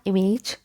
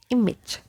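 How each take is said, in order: First: "image" ending in a long "age", i-mayj; mispronounced image. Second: "image" as IM-ij, short ending; correct image. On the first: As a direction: stretch the end of "image" to "ayj". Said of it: "This is not image". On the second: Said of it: "this is image". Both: Shown as a demonstration.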